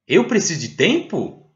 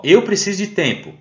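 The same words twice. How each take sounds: First: "Eu preciso de tempo" asked, pitch swinging up on tempo; question intonation. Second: "Eu preciso de tempo" stated, voice falling on tempo; statement intonation. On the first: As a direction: make tempo carry the question. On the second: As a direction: drop the tune on tempo to close the statement. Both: Shown as a demonstration. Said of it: "Com aquela entonação, né, como a gente tem em português".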